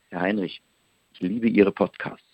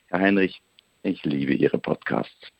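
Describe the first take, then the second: First: It sounds sincerely appreciative and warm. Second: It sounds arrogant and dismissive.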